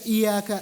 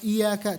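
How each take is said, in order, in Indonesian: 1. Bunyi y tunggal dan dibaca pendek. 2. Bunyi y tunggal dan dibaca pendek.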